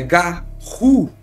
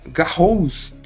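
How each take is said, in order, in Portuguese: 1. A palavra termina em vogal, sem s. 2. A palavra termina com um som de s audível. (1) "a pronúncia correta é Garou" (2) "apesar de se escrever Garrous"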